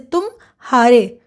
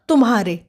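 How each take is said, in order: First: There is a short break between tum and haare. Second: It flows together with no break between syllables.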